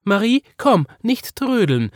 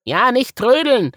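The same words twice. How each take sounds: First: High, loud calling mother; Mama calling. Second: High, loud bunny voice; Woggle echoing. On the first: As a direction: call the dawdling child along, higher and louder. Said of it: "sagte Mama". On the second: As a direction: echo the hurry, higher and louder. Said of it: "wiederholte Woggle". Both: A narrator's reading.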